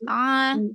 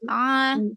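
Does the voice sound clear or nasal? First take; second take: nasal; nasal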